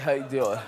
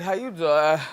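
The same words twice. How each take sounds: First: It is said sounding very tired. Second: It is said sounding tired.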